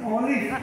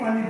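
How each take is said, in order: First: It starts with 'o' and ends with v. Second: It starts with 'a' and ends with f. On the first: The speaker calls it right. "অলিভই বলবেন" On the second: The speaker calls it wrong. "দয়া করে একে আলিফ বলবেন না"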